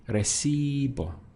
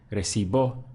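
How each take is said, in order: First: The stress is on the second-to-last syllable. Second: The stress is on the final syllable. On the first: It means I receive. The speaker calls it right. "I stress the syllable before last" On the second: It means something entirely different. The speaker calls it wrong. "then I would be stressing the end of the word"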